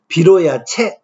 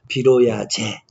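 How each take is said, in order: First: The last syllable is a harsh 'chae'. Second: The last syllable is a softened 'je'. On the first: This is the original, unsoftened form. "이렇게 발음 내야겠죠" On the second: This is the softened form that came to be used. "조금 순화하니까 빌어야 제 이렇게 발음되고"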